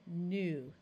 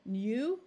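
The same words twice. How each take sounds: First: The vowel is a plain 'oo' sound. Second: The vowel is a 'yoo' sound. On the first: The speaker calls it right. "That one we could say" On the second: The speaker calls it wrong. "oh that's very hard to say"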